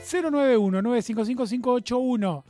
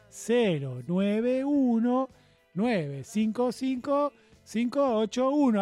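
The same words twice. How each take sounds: First: The number is said at normal speed. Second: The number is said more slowly.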